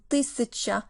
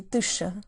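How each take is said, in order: First: Said in the usual way. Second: Тыща said as two syllables, the middle syllable dropped; clipped casual тыща; abbreviated form. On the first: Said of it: "is often kind of abbreviated". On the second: Shown as a demonstration. Teacher showing learners how Russians shorten тысяча to тыща. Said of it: "abbreviated to тыща".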